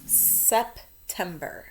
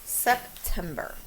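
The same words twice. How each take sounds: First: Slow, careful dictation of September; spelling-test dictation, drawn out. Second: September stretched slow and even; drawn-out spelling word; slow dictation again. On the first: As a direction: say each syllable clearly and slowly. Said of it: "we're going to spell". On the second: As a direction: lay out each syllable slowly. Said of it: "this is a tricky one". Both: Shown as a demonstration.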